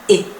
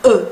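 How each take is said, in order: First: E as a closed French "é"; acute-accent E. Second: E as a neutral, rounded "euh"; short schwa-like French E; unaccented French E. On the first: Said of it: "la letra se pronuncia". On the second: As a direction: say E without the accent, lips rounded. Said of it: "es pronunciada". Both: Shown as a demonstration.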